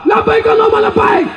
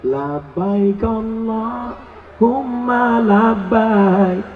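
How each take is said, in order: First: It is said loudly, Sumatran style. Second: It is said softly, Javanese style.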